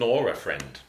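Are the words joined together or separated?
joined. The words run together, sounding like Nora. The speaker calls it wrong. "you don't want to sing nor a friend"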